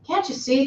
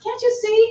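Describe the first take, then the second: First: A touch of impatience, read lightly; mildly snappish rhetorical question; impatient reply. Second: Much higher, exasperated "Can't you see?"; hammed-up impatient teacher; impatient reply. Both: A narrator's reading. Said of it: "comes the impatient reply".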